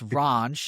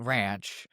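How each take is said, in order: First: The vowel sounds like the one in 'raunch'. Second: The vowel is the ordinary flat 'a' sound. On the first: The speaker calls it right. "the proper way to say Skinwalker Ranch according to Nick" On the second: The speaker calls it wrong. "not ranch"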